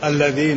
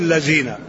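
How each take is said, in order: First: The consonant is a 'dh' sound, as in 'this'. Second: The consonant is a 'z' sound, as in 'zoo'.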